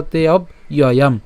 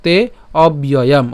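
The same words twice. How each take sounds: First: Slow তে অব্যয়াম split as "te ob, iyoyam"; broken into parts. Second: Slow তে অব্যয়াম with b linked, "te, obyoyam"; joined together. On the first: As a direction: pause after "ob" in অব্যয়াম. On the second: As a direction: run "ob" into "yoyam" in অব্যয়াম. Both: Shown as a demonstration. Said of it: "অথবা".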